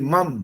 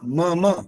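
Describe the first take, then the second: First: The word ends on a closed 'm' sound. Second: The word ends on an open 'ma' vowel. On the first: The speaker calls it wrong. "मैंने मम बोला तो ध्यान से देखिए, होंठ बंद हो गए" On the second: The speaker calls it right. "म के बाद पूरा म बोलना होता है"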